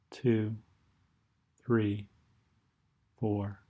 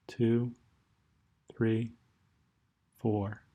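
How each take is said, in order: Both takes have the same delivery.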